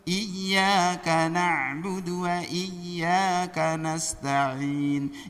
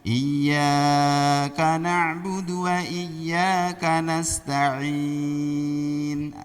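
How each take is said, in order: First: Both 'ya' sounds are held equally long. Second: The first 'ya' is held longer than the second. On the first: The speaker calls it right. "Harusnya sama" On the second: The speaker calls it wrong. "Ya yang pertama lebih panjang"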